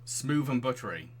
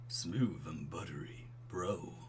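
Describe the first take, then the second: First: Said in the usual way. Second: Low, slow, soft bro voice; smooth and buttery. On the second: Shown as a demonstration. Streamer trying out Craig's voice, smooth and buttery. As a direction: pour it out low and unhurried. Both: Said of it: "I can do smooth and buttery".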